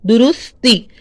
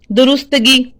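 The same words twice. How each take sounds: First: दुरुस्ती said clearly, no -गी ending, falling tune; the right version, दुरुस्ती with a firm fall; correct form. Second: दुरुस्तगी said as the common wrong word; the wrong version, दुरुस्तगी with -गी ending; wrong form. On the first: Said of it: "इसको पढ़ना है दुरुस्ती". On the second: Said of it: "ये लफ्ज़ गलत है". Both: Shown as a demonstration.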